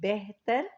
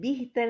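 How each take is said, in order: First: The first vowel is an 'e' sound. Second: The first vowel is a short 'i' sound. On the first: The speaker calls it right. "बल्कि बेहतर" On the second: The speaker calls it wrong. "बिहतर नहीं"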